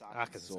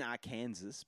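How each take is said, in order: First: It ends with a 'saw' sound. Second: It ends like the word Kansas. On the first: The speaker calls it right. "but it's Arkansas" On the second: The speaker calls it wrong. "It's written Arkansas"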